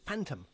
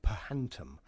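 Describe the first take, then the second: First: The word begins with an F sound. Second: The word begins with a separate P-H sound. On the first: The speaker calls it right. "I heard someone say, Phantom, that's what it is" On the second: The speaker calls it wrong. "I didn't know how to pronounce the words"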